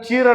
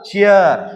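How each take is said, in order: First: The vowel is a single long ee sound. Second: The vowel glides from ee into uh. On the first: The speaker calls it wrong. "ಇಲ್ದ್ರ ಲೆಕ್ಕಲೆ ಓದ್ಬೇಕಾದ್ರೆ ನಾವ್ ಇದನ್ನ ಚೀರ್ ಅನ್ಬೇಕು" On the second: The speaker calls it right. "ಆದ್ರೆ ಇದು ಚೀರಲ್ಲ, ಚಿಯರ್"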